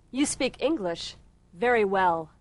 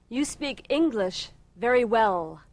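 Both takes have the same delivery.

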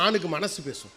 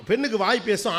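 First: ஆணுக்கு dropped low and quieter, falling; low soft ending. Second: பெண்ணுக்கு lifted and bright, a small laugh; light lilting first half; stress on பெண்ணுக்கு. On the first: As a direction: settle the second half down softly. (ஆணுக்கு என்பதை தாழ்த்தி மெதுவாக) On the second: (பெண்ணுக்கு என்பதை உயர்த்தி சிரிப்போடு) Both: Shown as a demonstration.

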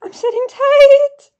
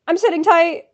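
First: High, loud, stretched-out wail; exasperated squeal. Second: Loud, emphatic falling reply; impatient retort. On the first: Fan stuck waiting on the website, exasperated squeal. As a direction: squeal it slowly, climbing on the last word. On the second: Fan answering the website's order, impatient retort. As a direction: answer back firmly and loudly. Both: Real, not acted. Answering the site's sit tight.

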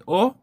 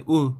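First: או said as a pure "oh"; holam as O. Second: או said as a long "oo"; full holam as U. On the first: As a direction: sound out או as an open O vowel. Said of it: "גם בהגייה וגם במשמעות". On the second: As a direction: sound out או as a rounded U vowel. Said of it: "בין או לאו". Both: Shown as a demonstration.

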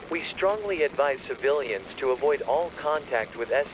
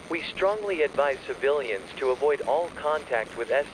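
The two takes are said the same way.

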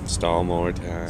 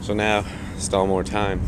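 First: Slower, softer, lower repeat to himself; slow resigned echo under the breath; weary echo. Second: Said in the usual way. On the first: Real, not acted. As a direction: mutter it back, resigned.

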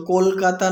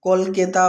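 First: কলকাতা said with an "aa" in the middle, kol-kaa-taa; today's standard kol-KAA-taa in কলকাতা; modern form. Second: কলকেতা said with an "e" in the middle, kol-ke-taa; old-time form. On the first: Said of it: "বলে উল্লেখ করা হয়েছে". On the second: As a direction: say কলকেতা with middle "ke" instead of "kaa". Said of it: "তৎকালীন ভাষা". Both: Shown as a demonstration.

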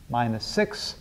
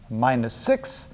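The two takes are said the same way.

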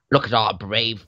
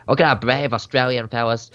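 First: Said in the usual way. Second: Put-on a mild, joking Australian accent. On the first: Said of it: "oh, sorry, I have to put on an accent". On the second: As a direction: put on a light Aussie newsreel accent for "Look at our brave Australian fellas". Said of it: "I have to put on an accent".

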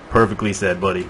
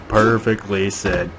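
First: Said in the usual way. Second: "Perfectly said" stretched out slowly; drawn-out praise. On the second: Acted. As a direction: savour "Perfectly said", word by word. Repeats praise, drawing it out.

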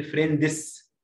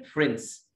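First: Egyptian-style فريندز with D and extra vowel sounded; Egyptian pronunciation. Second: American-style فريندز with D dropped; American pronunciation. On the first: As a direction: say فريندز as 'fren-dis', two syllables. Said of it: "مصر نقول". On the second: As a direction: say فريندز as one syllable, 'frenz'. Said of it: "امريكان". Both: Shown as a demonstration.

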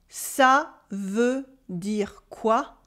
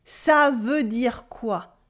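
First: Very slow, quoi rising like a question; slow model, rising. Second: Slow and falling at the end; slow model, falling. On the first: Teacher giving the rising question version to repeat. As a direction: lift quoi at the end, very slowly. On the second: Teacher modelling the question slowly for learners to repeat. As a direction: let quoi fall, slowly. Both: Shown as a demonstration. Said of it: "Repeat after me".

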